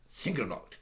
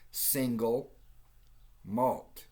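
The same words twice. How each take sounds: First: It is run together like a single word. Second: It is said as two separate words. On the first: The speaker calls it wrong. "which is a stupid way to say it. It's not single malt. It's not one word" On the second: The speaker calls it right. "It's two words"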